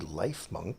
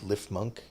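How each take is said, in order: First: The first syllable has a long 'eye' vowel. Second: The first syllable has a short 'ih' vowel. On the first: The name refers to life and healing. "because ... it's good at planting and growing and medicine" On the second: The name echoes the word chipmunk. "because it sounds like a chipmunk"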